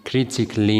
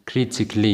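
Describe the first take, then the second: The two takes are said the same way.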